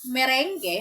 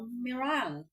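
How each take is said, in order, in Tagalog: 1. Binibigkas ito sa paraang Pilipino. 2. Binibigkas ito sa paraang dayuhan. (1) "sa atin" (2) "sa kanila daw meringue. Correct pronunciation is meringue"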